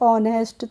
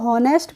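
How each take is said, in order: First: The word begins directly with a vowel. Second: The word begins with an h sound. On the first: The speaker calls it right. "इसको पढ़ेंगे ऑनेस्ट" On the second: The speaker calls it wrong. "तो हॉनेस्ट पढ़ेंगे, नहीं"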